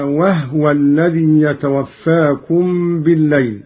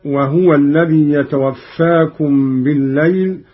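First: وهو with a vowelless ha, "wahwa"; silent ha. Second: Said in the usual way. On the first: Shown as a demonstration. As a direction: close the ha of وهو straight into the waw. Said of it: "بإسكان الهاء على التخفيف". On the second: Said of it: "قرأ قالون بإسكان الهاء".

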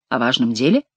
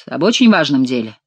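First: Low-key echo, rising on "деле"; questioning echo. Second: Said in the usual way. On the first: A narrator's reading. King checking what he heard, questioning rise on "деле". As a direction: ask it back, lifting "деле" into a question. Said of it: "переспросил Генрих".

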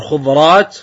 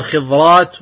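First: "خضرات" said khudraat, with u after the first consonant; variant pronunciation. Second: "خضرات" said khidraat, with i after the first consonant; variant pronunciation. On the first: Teacher showing one accepted reading, "خضرات" pronounced khudraat. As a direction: say "خضرات" as khu-draat, with a short u. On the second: Teacher showing the other reading, "خضرات" pronounced khidraat. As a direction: say "خضرات" as khi-draat, with a short i. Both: Shown as a demonstration. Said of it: "ومنهم من قال أيضًا يقال بالفتح".

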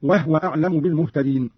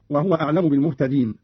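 First: "وهو" said "wahwa", no vowel on the ha; silent-vowel ha. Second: Said in the usual way. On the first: Shown as a demonstration. Teacher demonstrates Qalun's reading, "وهو" as "wahwa". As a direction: close the ha of "وهو" straight into wa. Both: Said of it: "قرأ قالون بإسكان الهاء".

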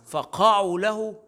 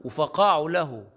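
First: فقعوا له slow, higher, stress on فق; shifted stress. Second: وفقعوا له slow, stress on the و; correct stress. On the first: Teacher showing the wrong stress, slow and high. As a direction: hit فق in فقعوا له. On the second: Teacher showing the correct stress, slow. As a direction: lean on the و in وفقعوا له. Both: Shown as a demonstration. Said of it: "الانتقال النبر هنا أدى إلى اختلال".

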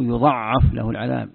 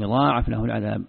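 First: "يضعف" said yuda''af, short vowel, doubled ayn; word-form variant. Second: "يضاعف" said yudaa'af, long aa; long middle vowel and single ayn in "يضاعف"; word-form variant. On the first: Teacher shows the doubled form, "يضعف" as yuda''af. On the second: Teacher shows one conjugation, "يضاعف" as yudaa'af. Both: Shown as a demonstration. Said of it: "تصريف الكلمة".

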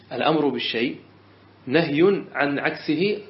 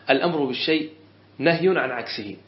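First: A teacher spelling out the rule for note-taking; deliberate restatement. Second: Said in the usual way. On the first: Shown as a demonstration. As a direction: repeat the rule word by word, slowing on نهي عن عكسه. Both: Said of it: "بس".

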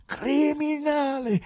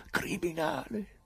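First: High, loud, very slow roar; the peak of the accusation, let it ring; full shout. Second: High and slow, holding back the volume; raised voice. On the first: Pilate roaring so he is heard in the garden, full shout. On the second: Pilate accusing the prisoner so the garden hears, high and slow. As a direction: start the accusation high but contained. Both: Acted. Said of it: "Alzò ancora la voce".

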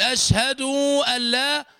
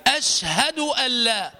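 First: أشهد with final u stretched into long oo; over-lengthened damma. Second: أشهد with short final u, joined to allaa; correct damma. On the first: Teacher contrasts the mistake, dragged-out u. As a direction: stretch the dal's vowel in أشهد before أن لا. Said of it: "أما أن تقول". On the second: Teacher models the right wording, short u. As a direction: keep the u on the dal of أشهد short. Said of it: "والصواب أن تنطق الدال مضمومة فتقول". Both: Shown as a demonstration.

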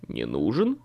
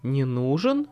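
First: Put-on lower, puzzled young man; surprised young man. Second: Surprised queen. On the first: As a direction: asks it low, taken aback. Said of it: "удивился Билли". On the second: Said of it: "удивилась Мэйв". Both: A narrator's reading.

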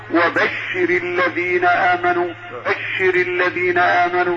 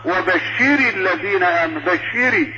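First: Careful model of وبشر الذين; correct recitation. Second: وبشر with a long ee after the ر; overlengthened vowel. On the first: Sheikh shows how it should be said, correct وبشر. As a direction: recite وبشر with a short vowel on ر. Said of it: "الصواب أن تقول". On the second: Sheikh shows the error that turns it feminine, بشري for وبشر. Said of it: "انقلب الفعل من الخطاب للمذكر إلى المؤنث". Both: Shown as a demonstration.

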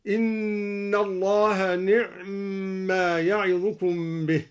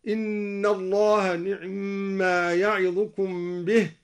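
First: نعم with the ع given no vowel, slow and held; silent ain. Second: نعم with the vowel on the ع barely touched; snatch the vowel of the ع in نعم quickly. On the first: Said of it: "وإسكانها هكذا". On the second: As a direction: ikhtilas on the ع of نعم. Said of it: "باختلاس العين". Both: Shown as a demonstration.

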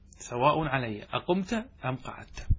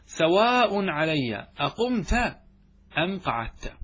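First: Said in the usual way. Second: Slow teacher's citation, leaning on سواء; slow emphatic recitation. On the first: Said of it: "repeat of the example". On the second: Shown as a demonstration. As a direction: stretch سواء علي أقمت out slowly, stressing سواء. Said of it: "قال نحو".

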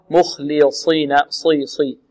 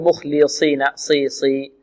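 First: مخلصين with a dark, tongue-raised saad in صي; full emphatic saad. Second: مخلصين with the صي thinned towards a plain see; weak saad. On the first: Teacher modelling the correct letter, emphatic saad. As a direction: keep the saad of مخلصين heavy. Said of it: "وإنما هو". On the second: Teacher showing the mistake to avoid, thin saad. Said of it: "لا نقول". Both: Shown as a demonstration.

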